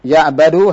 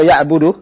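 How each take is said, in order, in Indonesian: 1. Vokal setelah b adalah 'a'. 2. Vokal setelah b adalah 'u'.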